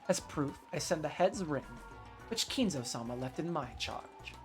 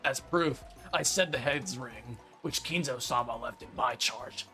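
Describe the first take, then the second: First: It is read in his normal voice. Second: It is read in a Rudolph impression.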